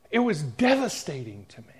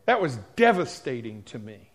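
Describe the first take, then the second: First: Breathless whisper, voice gone; whispered repeat. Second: Said in the usual way. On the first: Real, not acted. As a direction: let the words sink into a whisper.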